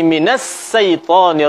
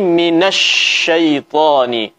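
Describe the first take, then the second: First: The consonant is a sharp 's' from the tongue tip. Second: The consonant is a spread 'sh' from mid-tongue. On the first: The speaker calls it wrong. "Minas ini adalah suara huruf sin yang keluar dari ujung lidah" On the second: The speaker calls it right. "Yang benar adalah huruf sin ini mesti kita keluarkan dari tengah lidah kita"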